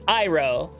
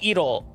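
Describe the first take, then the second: First: The name is said in an English style. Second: The name is said in a Japanese style. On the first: The speaker calls it right. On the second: The speaker calls it wrong. "the way that's pronounced in Japanese would be"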